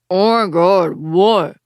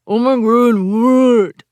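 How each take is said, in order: First: The words are spoken clearly. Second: The words sound muffled, as if lips are pressed.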